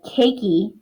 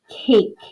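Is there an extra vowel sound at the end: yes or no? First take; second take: yes; no. First: The word ends with an extra vowel sound. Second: The word ends without an extra vowel sound. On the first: The speaker calls it wrong. "please make sure that we're not saying the E" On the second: The speaker calls it right. "here is the word cake"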